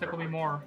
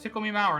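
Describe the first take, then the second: First: The last word does not rhyme with 'flower'. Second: The last word rhymes with 'flower'. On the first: The speaker calls it wrong. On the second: The speaker calls it right. "Mauer, our flower, sour"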